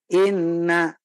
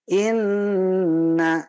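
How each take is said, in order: First: The nasal sound lasts about two beats. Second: The nasal sound lasts about three beats. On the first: The speaker calls it wrong. "Kalau dua kali ketukan" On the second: The speaker calls it right. "sempurnanya dengung itu dengan tiga kali ketukan"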